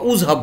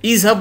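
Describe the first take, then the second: First: The word begins with a u vowel. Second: The word begins with an i vowel. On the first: The speaker calls it wrong. "উজহাব বলি না" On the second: The speaker calls it right. "ইজহাব বলি"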